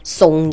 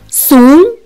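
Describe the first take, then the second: First: The syllable is said with a non-second tone. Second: The syllable is said with the second tone. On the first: It means to be scared or afraid. "송 얘기할 때는 그냥 무서워하다, 공포하다 라는 뜻이에요" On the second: It means weak and incompetent. "이성 읽을 때는"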